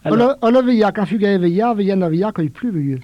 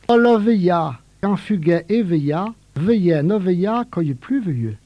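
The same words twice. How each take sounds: First: It is said at a quicker, normal pace. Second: It is said slowly and deliberately.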